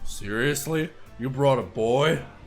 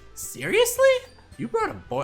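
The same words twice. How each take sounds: First: It is said in the speaker's natural voice. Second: It is said in a put-on character voice.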